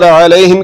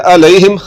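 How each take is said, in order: First: अलैहिम opening on a squeezed, voiced ain; mid-throat ain. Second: अलैहिम opening on a plain glottal 'a'; low-throat hamza. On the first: Teacher contrasting two sounds, mid-throat ain. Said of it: "हलक के दरमियान वाले हिस्से से". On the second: Teacher showing learners the mistake, low-throat hamza. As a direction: start अलैहिम with a simple catch low in the throat. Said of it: "हलक के नीचे वाले हिस्से से". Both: Shown as a demonstration.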